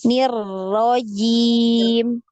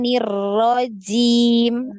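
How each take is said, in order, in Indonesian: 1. Bunyi j diucapkan tanpa desis. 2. Bunyi j diucapkan dengan desis napas.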